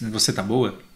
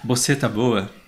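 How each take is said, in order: First: 'Você' begins with a clear V sound. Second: 'Você' begins with a B-like sound.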